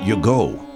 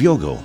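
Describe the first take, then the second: First: The stress is on the second syllable. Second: The stress is on the first syllable.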